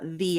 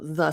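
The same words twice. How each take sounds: First: The vowel is long, like 'thee'. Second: The vowel is short, like 'thuh'. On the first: "if the the next word begins with a vowel, it's going to be the" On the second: "if it starts with a consonant, then it's the"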